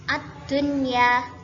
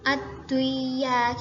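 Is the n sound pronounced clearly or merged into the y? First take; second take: clear; merged. First: The n is pronounced clearly before the y. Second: The n merges into the following y sound. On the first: The speaker calls it right. "harus dibaca jelas tanpa berdengung" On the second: The speaker calls it wrong. "bukan bukan ad-duya gitu"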